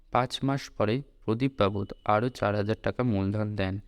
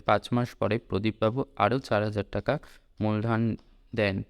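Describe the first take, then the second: Both takes have the same delivery.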